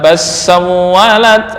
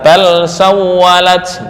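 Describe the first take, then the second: First: The l sound merges into the next consonant. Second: The l sound is pronounced clearly. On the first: The speaker calls it wrong. "langsung salah" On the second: The speaker calls it right. "hafaz semua dibaca dengan idhar"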